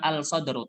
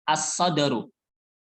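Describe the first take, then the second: First: The L of the article is pronounced clearly. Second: The L merges into the following consonant. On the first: The speaker calls it wrong. "Bacanya bukan al-sadaru" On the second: The speaker calls it right. "tapi as-sadaru"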